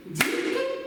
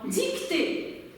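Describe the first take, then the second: First: "Dictée" in two detached beats, dic - tée; split into syllables. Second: Said in the usual way. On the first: Shown as a demonstration. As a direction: clap out "Dictée" with a gap between syllables. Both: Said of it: "je vais segmenter et vous allez le faire".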